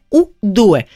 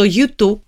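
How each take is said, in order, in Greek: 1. Διαβάζεται στα ιταλικά, oo doo-eh. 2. Διαβάζεται με αγγλικά γράμματα, εσείς οι δυο. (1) "στα Ιταλικά είναι ουντούε" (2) "Το U2 στα Ιταλικά είναι"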